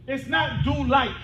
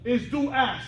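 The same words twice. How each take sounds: First: "like" set apart slowly and emphatically; stress on LIKE. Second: "as" stressed in contrast. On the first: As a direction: lean firmly on "like" as the rejected word. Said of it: "it's not do like you did". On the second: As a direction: land firmly on "as" as the correction. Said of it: "It's do as you did". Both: Shown as a demonstration.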